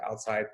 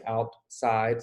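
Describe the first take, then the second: First: Said in the usual way. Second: "Outside" split in two, a clear gap between out and side; syllables separated. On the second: Shown as a demonstration. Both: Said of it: "two sounds that are separate".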